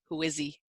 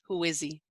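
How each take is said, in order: First: The words run together and the H disappears. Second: The same.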